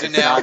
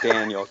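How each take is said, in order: First: The name is pronounced like 'Danelle'. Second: The name is pronounced like 'Daniel'. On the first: The speaker calls it right. "It's Danelle" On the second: The speaker calls it wrong. "Not Daniel, goddamn it"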